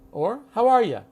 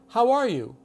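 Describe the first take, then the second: First: The last word is reduced to 'ya'. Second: The last word is the full 'you'.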